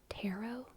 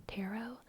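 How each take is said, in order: No difference in how they are said.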